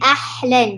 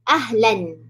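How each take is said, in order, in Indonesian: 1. Bunyi h itu tegang dan dari tenggorokan. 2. Bunyi h itu ringan dan berdesah. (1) "bukan ahlan. Dia tiba-tiba tukar ha tu jadi ha" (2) "ha di bawah. Ha yang dekat dengan uh, dada"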